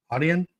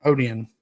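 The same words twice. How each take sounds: First: "Odeon" questioned, rising, first vowel "ah"; "Odeon" with an AH-dee-on start. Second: "Odeon" with a firm falling end; "Odeon" said as oh-DEE-on. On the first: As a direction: test "Odeon" as AH-dee-on, unsure. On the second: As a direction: try "Odeon" in three syllables. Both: Shown as a demonstration. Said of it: "Wonder how we pronounce that part".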